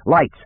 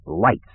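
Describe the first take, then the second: First: High, mild narrated shout; shouted command. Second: Restrained order through clenched teeth; clenched-teeth clarity. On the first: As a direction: call out the order sharply, without full volume. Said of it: "he shouted so loudly". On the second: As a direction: force the word out clearly, held back. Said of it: "articulate with brutal clarity through clenched teeth". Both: A narrator's reading.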